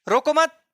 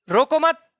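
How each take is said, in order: Both takes have the same delivery.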